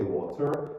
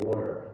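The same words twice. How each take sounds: First: The middle t is a clear t sound. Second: The middle t sounds like a d. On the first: "You don't need to say water" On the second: "You can say water like that"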